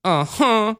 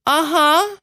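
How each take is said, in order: First: Put-on falling, reluctant little-girl uh-huh; begrudging child. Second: Put-on high, rising little-girl uh-huh; eager-sounding child's yes; not very grudging child. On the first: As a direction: give in sulkily, like a small child. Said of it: "that was more begrudging". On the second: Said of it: "that wasn't very grudging". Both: Shown as a demonstration.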